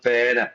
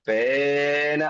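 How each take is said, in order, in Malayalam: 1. ഈ വാക്ക് സാധാരണ നീളത്തിലാണ് പറഞ്ഞിരിക്കുന്നത്. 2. സ്വരം അനാവശ്യമായി നീട്ടിയിരിക്കുന്നു.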